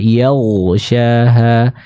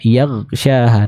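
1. Bunyi gh itu tebal dan mengalir dengan lancar. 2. Bunyi gh berhenti tanpa ada aliran. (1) "kita tebalkan pengucapannya sambil mengalirkan suara dari huruf ghain" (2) "dibaca dengan suara yang tidak dialirkan"

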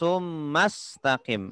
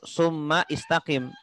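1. Kedua kata itu tersambung tanpa vokal di awal. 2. Vokal di awal kata kedua dibaca. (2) "Tidak perlu"

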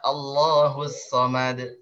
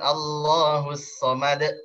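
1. 'd' di akhir memantul bebas tanpa hamzah. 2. 'd' di akhir dipotong dengan hamzah. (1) "Ya Allahus Samad" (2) "bukan Allahus Samad"

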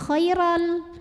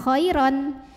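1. Bunyi n di akhir dilebur menjadi bunyi l. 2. Kata itu berakhir dengan bunyi n yang jelas. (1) "dileburkan atau dimasukkan ke lam jadi khairal" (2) "tanwinnya ini tidak lagi dibaca n, bukan khairon"

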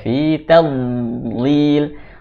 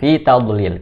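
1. Bunyi d ditahan dan mengalir halus. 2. Bunyi d berakhir dengan lepasan yang memantul. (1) "Berjalan suaranya" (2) "saya sering menemukan Bod itu mantul ... Tidak boleh"

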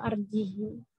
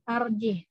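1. Kata itu berakhir dengan i pendek setelah h. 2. Kata itu berakhir pada huruf h tanpa vokal. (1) "Biasanya kan fa'alqihi atau arjihi" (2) "ha dibaca sukun"

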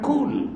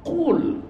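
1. Dimulai dengan bunyi k depan yang biasa. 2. Dimulai dengan bunyi q belakang yang dalam. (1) "Bukan kul"

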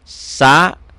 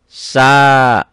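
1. Vokalnya pendek. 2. Vokalnya panjang.

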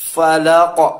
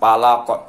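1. Diawali bunyi F yang berhembus. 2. Diawali bunyi P. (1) "fanya ada hamas sedikit, ada angin keluar sedikit" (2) "bukan palaq"

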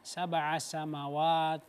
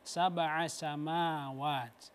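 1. Vokal dalam samawat dibaca pendek. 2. Vokal dalam samawat dibaca panjang. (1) "Jangan dibaca" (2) "Harus dibaca panjang, harus sama"

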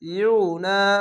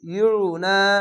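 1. অক্ষরটি 'yu' ধ্বনি দিয়ে শুরু হয়। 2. অক্ষরটি 'yu' ধ্বনি দিয়ে শুরু হয়।

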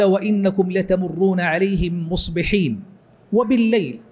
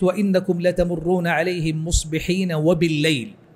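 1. يوجد وقف قبل الكلمة الأخيرة. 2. تتصل الكلمات دون وقف. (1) "وهكذا تقول في كل آية" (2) "فلو وصلت قلت"

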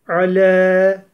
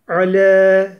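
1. L ince, ünlüsü de ön ince. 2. L ince, ünlüsü de ön ince.

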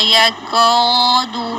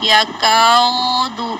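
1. حرف المد يُنطق مفخَّماً ثقيلاً ممتلئاً. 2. حرف المد يُنطق مفخَّماً ثقيلاً ممتلئاً.

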